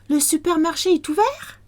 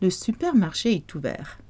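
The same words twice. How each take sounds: First: The voice rises at the end like a question. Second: The voice falls at the end like a statement. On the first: It asks whether the supermarket is open. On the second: It states that the supermarket is open.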